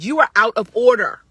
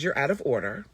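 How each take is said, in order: First: It is said in a heated, raised tone. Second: It is said in a calm, even tone.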